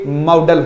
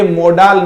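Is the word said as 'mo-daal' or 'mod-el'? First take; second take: mod-el; mo-daal. First: It sounds like 'mod-el' with a short second vowel. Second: It sounds like 'mo-daal' with a long second vowel. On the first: The speaker calls it right. "ये मॉडल होता है" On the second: The speaker calls it wrong. "ये मोडाल नहीं होता"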